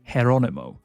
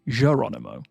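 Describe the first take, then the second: First: The name starts with a breathy H-like sound. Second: The name starts with a soft, light J sound. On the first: This is how it is said in Spanish. "in Spanish, ... the J is pronounced more like an H" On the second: This is how it is said in Portuguese. "in Portuguese, ... it's still a slight J, but a softer J"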